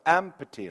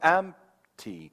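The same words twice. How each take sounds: First: The P sound is clearly pronounced. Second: The P is silent but its beat remains. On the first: "그 P 사운드를 내보세요" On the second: "P 사운드를 안 내고 박자만 있는 거예요"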